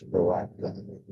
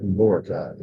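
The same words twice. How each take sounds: First: Boracay said bo-RA-kai; Boracay corrected, accent on RA. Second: Boracay said BORE-a-kai; wrong take, BORE-uh-kai for Boracay; mispronounced Boracay. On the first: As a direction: stress the middle syllable of Boracay. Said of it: "Second syllable accent". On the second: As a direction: stress the first syllable of Boracay. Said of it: "It's not Boracay". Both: Shown as a demonstration.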